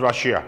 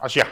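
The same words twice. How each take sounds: First: Said in the usual way. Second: Russia said as Ashia, the R dropped; Russia without R. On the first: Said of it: "They cannot pronounce Russia". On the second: Shown as a demonstration. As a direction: leave the first R off Russia. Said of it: "no sound for R".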